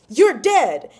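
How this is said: It is said loudly, as an exclamation.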